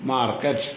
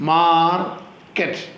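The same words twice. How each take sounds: First: Said in the usual way. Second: market drawn out slowly, pause between മാർ and cut; split into syllables. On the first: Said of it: "രണ്ടോട് ചേരുമ്പോൾ market എന്നാവും". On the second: Shown as a demonstration. Teacher has pupils listen to syllables, market slowly split in two. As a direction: break market in two, holding the first syllable. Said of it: "മാർ എന്നുള്ളത് ഒരു സിലബിളാണ്".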